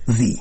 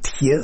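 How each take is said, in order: First: It is said as the English word 'the'. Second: It is read letter by letter as 'tkhe'. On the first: This is the actual English word. The speaker calls it right. "«The», он имел в виду" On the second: This is the letter-by-letter reading of the spelling. The speaker calls it wrong. "что Пушкин называл «тхе»"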